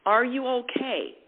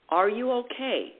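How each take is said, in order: First: "are" leaned on, the question falling after it; ARE pushed, the rest falling away; stress on ARE. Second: "you" leaned on, the question falling after it; YOU pushed, the rest falling away; stress on YOU. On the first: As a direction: press the word "are" in Are you okay. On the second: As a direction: press the word "you" in Are you okay. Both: Shown as a demonstration.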